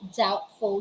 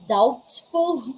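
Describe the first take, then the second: First: The b sound is left out. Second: The b sound is pronounced. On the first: The speaker calls it right. "Letter B is silent if this is the case" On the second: The speaker calls it wrong. "We're not going to say"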